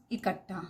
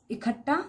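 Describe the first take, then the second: First: इकट्ठा said with a plain unaspirated k, softly falling; correct k sound. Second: इकट्ठा said with an aspirated kh, like इखट्ठा; wrong kh sound. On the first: Teacher giving students the correct इकट्ठा with plain k. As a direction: clean k in इकट्ठा, no breath after it. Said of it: "क, इकट्ठा।". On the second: Teacher showing students the common wrong इकट्ठा with kh. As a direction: stress the breathy kh in इकट्ठा. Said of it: "ख का उच्चारण कर रहे हैं". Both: Shown as a demonstration.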